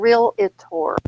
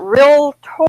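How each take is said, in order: First: It is said with an extra middle syllable. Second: It is said without an extra middle syllable. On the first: The speaker calls it wrong. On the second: The speaker calls it right.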